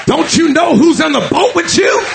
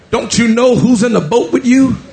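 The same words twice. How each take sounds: First: Climbing sermon cry; rising preached shout. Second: Said in the usual way. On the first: Acted. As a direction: drive the question home like a challenge. Jesus repeats question, second louder.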